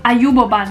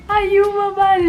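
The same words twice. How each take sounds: First: Said in the usual way. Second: Excited discovery. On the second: Shown as a demonstration.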